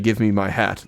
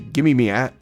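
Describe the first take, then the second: First: The word before hat sounds like my. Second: The word before hat sounds like me. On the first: "They don't say "give me my hat."" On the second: "They say "give me me hat.""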